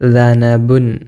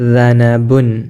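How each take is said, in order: First: The word begins with a soft 'th' sound. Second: The same.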